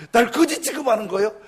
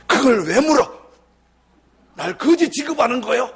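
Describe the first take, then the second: First: Loud, higher yell through laughter; preacher laughing as he replays the yell; laughing mock shout. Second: Louder, higher indignant yell; angry shout. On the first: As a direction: repeat the outburst, cracking up. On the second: Retold or imitated. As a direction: bark it back at the pastor. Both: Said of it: "막 소리를 지르는 거예요".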